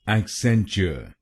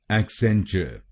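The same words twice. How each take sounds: First: It is said in an American accent. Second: It is said in a British accent.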